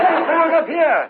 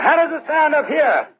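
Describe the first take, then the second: First: Way-up high voice. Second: High voice. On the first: Partner demanded higher, straining way up high. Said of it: "get way up there". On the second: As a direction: lift the voice moderately high and draw it out. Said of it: "I'll try to get a high one". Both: Acted.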